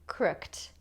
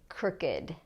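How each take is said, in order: First: The word ends in a t sound, one syllable. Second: The ending is a separate syllable, two syllables. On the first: The speaker calls it wrong. "if it followed the rule for regular past tense verbs, we would say crooked" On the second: The speaker calls it right. "we say crooked"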